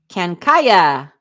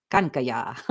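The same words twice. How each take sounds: First: "Kankaya" said KAN-kai-ya, stress on the first syllable; "Kankaya" with a flat a, kai in the middle; first guess at name. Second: "Kankaya" said kun-kuh-YAH, stress moved to the end; "Kankaya" with a final YAH; corrected name. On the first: Trying the viewer's name, stressing KAN. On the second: Correcting her pronunciation of the viewer's name. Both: Shown as a demonstration. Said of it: "putting the wrong emphasis on the wrong syllable".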